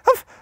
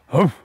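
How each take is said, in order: First: The bark is said at a high pitch. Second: The bark is said at a deep pitch. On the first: It imitates a small dog. "teď vysoký tón jako ratlík" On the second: It imitates a large dog. "A teď hluboký tón. Bernardín"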